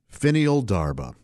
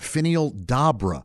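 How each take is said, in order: First: An R sound is heard before the B. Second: No R sound is heard before the B. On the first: The speaker calls it wrong. "I said it wrong again" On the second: The speaker calls it right. "They just pronounce the second one"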